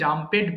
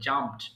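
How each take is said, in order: First: The ending is said as an extra syllable. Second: The ending is added without an extra syllable. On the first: The speaker calls it wrong. "এটা অনেকে জাম্পেড বলে।" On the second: The speaker calls it right. "জাম্পেড না বলে জাম্পড use করবেন"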